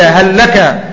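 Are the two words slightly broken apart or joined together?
joined. The two words run together like one word. The speaker calls it wrong. "فلا تقل فقل هل لك إلى"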